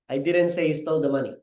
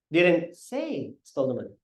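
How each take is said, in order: First: It is said flat, with no word stressed. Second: The word say carries the stress. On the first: "That's very flat, walang pronunciation, walang proper delivery" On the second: "Hindi ko sinabi, in-imply ko"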